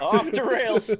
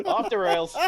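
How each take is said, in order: First: Loud laughing "Off the rails"; laughing exclaim. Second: Amused repeat. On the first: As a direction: crack up as the host gives up. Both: Real, not acted.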